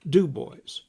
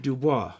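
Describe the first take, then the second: First: The stress is on the first syllable. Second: The stress is on the second syllable. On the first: This is how the local people say it. "they call it Dubois with the accent on the first syllable" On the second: This is the usual reading of the spelling. "normally that'd be Dubois"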